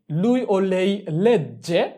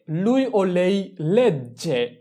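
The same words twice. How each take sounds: The two takes are said the same way.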